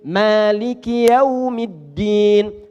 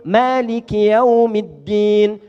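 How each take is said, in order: No difference in how they are said.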